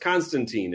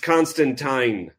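First: The last syllable rhymes with teen. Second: The last syllable rhymes with wine. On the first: The speaker calls it wrong. "it's spelled T-E-E-N" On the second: The speaker calls it right. "like constant wine or something like that"

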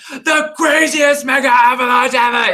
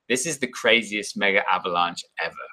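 First: It is said loudly, like shouting. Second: It is said calmly, in an understated way.

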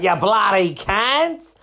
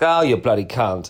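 First: It is said like an Australian. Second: It is said like a British person.

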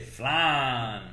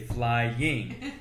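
First: It is said with a Southern pronunciation, sounding like flan. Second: It is said with a standard, non-Southern pronunciation. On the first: The speaker calls it wrong. "the Michael had a Southern accent, so he would always say" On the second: The speaker calls it right. "they kept trying to teach this kid to say "flying,""

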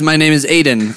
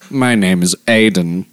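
First: It is said in the speaker's normal voice. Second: It is said in a put-on character voice.

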